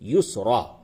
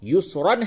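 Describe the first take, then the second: First: The word ends with a long a vowel. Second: The word ends with a final an sound. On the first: The reader pauses on the word. "वक्फ की हालत में युसरा" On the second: The word is read without pausing on it. "युसरन है"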